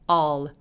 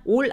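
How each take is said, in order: First: The vowel is drawn out longer. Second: The vowel is short. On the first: The speaker calls it right. "더 길게" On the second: The speaker calls it wrong. "all 아니고"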